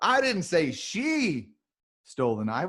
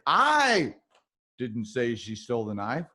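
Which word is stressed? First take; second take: she; I. First: The stress is on the word she. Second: The stress is on the word I.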